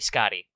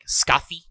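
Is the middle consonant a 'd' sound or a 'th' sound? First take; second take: d; th. First: The middle consonant is a plain 'd' sound. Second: The middle consonant is a soft 'th' sound. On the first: "for the sake of simplicity, we're going to just say Scotty" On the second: "the sound, like the th in father"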